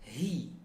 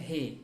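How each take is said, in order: First: The syllable has a clear close i vowel. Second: The syllable has an open e-like vowel. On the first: The speaker calls it right. "sempurnakan harokat kasrah hi" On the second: The speaker calls it wrong. "jangan dibaca he"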